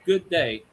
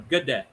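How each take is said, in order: First: Both words are said fully and separately. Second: The words are run together quickly, short first part. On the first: This is the British greeting. The speaker calls it wrong. "It's not good day. That's British" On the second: This is the Australian greeting. The speaker calls it right. "you put it together fast. The G is very sh- short"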